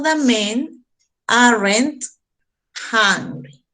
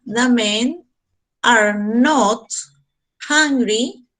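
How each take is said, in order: First: "aren't" run together as one word; quick contraction "aren't" for the class; contracted form. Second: Are not spelled out slowly, each word apart; careful full "are not" for the class; full negative form. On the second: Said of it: "en forma negativa sería". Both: Shown as a demonstration.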